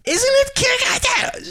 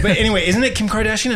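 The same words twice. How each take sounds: First: Squeaky falsetto question; high voice. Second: Said in the usual way. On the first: Shown as a demonstration. Podcaster mocking her own high voice. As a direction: jump way up into a high voice. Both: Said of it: "when I do my high voice".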